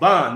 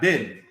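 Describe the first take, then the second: First: The vowel sounds like the a in cat. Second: The vowel sounds like the e in bed. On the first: The speaker calls it right. "It's Ban" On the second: The speaker calls it wrong. "not Ben"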